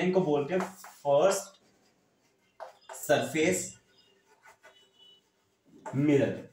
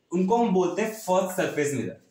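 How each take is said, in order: First: Long pauses before "surface" and before "mirror", each word set apart; term spelled out slowly. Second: Said in the usual way. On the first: Shown as a demonstration. Teacher drilling a new term into students, word by word with pauses. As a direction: give "first", "surface", "mirror" one at a time with a long pause between. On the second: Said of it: "यानी जो mirror है ना".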